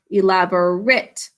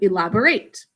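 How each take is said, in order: First: It is pronounced the way the adjective is. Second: It is pronounced the way the verb is. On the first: The word describes something. The speaker calls it right. "elaborate is an adjective, and that's why we say elaborate" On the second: The word names an action. The speaker calls it wrong. "instead of elaborate"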